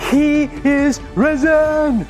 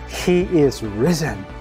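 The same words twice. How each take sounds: First: It is said at the loudest level. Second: It is said at the quietest level. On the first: "each time I'm going to crescendo my tone" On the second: "each time I'm going to crescendo my tone"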